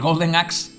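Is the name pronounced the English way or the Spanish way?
English. The name is said with English sounds. It is the pronunciation used now by someone who knows English. The speaker calls it wrong. "que si dices"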